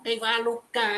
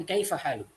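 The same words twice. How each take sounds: First: Kaifa haluka with its final a voiced; the form Arabs do not use at a pause; full vowel ending. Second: Kaifa haluk cut off at the k; pausal form. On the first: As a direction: say haluka with the closing a. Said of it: "nggak ngomong kaifa haluka". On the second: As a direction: stop haluk dead on the k. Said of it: "Tapi kaifa haluk". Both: Shown as a demonstration.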